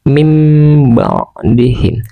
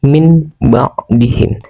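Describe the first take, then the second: First: The nasal before the b sounds like m. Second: The nasal before the b sounds like n. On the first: This is how it is recited. "Cara membacanya" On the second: This is how it is written.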